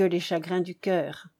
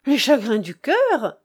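First: Said in the usual way. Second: Louder exclamation, "cœur" thrown up then falling; exclaiming. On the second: A narrator's reading. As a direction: cry out "Les chagrins du cœur" in astonished echo. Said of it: "s'écria le comte d'Herfeuil". (exclamation vive, « cœur » appuyé)

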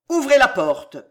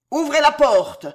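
First: Loud, raised order; marshal's forceful command. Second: High, very loud command; booming, urgent shout; thundering. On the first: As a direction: give a firm order that carries. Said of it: "commanda le maréchal". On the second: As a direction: thunder the order at full voice. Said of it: "tonna Montmorency". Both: A narrator's reading.

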